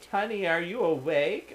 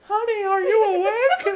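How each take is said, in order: First: It is read in a natural voice. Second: It is said in a put-on mom voice.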